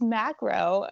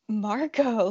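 First: The word begins with the sound 'mac'. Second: The word begins with the sound 'mar'. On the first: The speaker calls it right. "It's macro" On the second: The speaker calls it wrong. "I've been saying it wrong for years"

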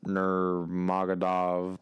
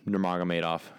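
First: The surname is said in an anglicized way. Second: The surname is said in a native-like way. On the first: The speaker calls it wrong. "Not Nurmagomedov" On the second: The speaker calls it right. "notice how I pronounced that correctly"

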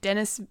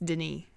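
First: The name is said with an English pronunciation. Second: The name is said with a French pronunciation. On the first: The speaker calls it wrong. "was the uncultured way to say it" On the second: The speaker calls it right. "I think it's how it's pronounced"

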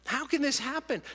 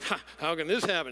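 First: It sounds like a sincere, seeking question. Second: It sounds scoffing and dismissive.

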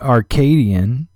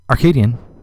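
First: It is said at normal speed. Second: It is said very fast.

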